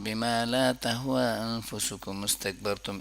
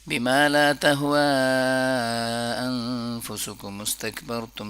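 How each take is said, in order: First: The long vowel is held only briefly, barely stretched. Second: The long vowel is stretched to its maximum length. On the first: "ऐसे भी हो सकता है" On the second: "सबसे पहला तरीका जो मैक्सिमम इससे ज़्यादा स्ट्रेच नहीं किया जा सकता"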